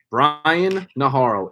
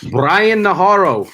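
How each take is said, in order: First: Said in the usual way. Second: Announcer call. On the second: Acted. Calls out drafted name.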